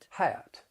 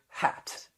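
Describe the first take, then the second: First: The vowel glides into a schwa, Southern style. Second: It has a plain short vowel.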